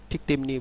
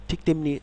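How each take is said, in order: The two takes are said the same way.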